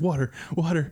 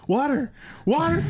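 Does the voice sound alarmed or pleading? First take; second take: pleading; alarmed. First: It is said as a pleading request. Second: It is said with sudden alarm. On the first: The speaker wants water to cool his burning feet. "his feet from the brake thing" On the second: A flood of water is coming and they must run. "the inflection changes"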